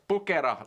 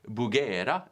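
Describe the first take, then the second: First: It is said with a Finnish pronunciation. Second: It is said with a non-Finnish pronunciation.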